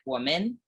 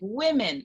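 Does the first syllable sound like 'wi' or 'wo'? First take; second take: wo; wi. First: The first syllable is said like 'wo'. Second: The first syllable is said like 'wi'. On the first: It follows the Chinese reading of the spelling. The speaker calls it wrong. "I would always say woman, like woman" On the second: It is the English pronunciation of the plural. The speaker calls it right. "I had to be like women"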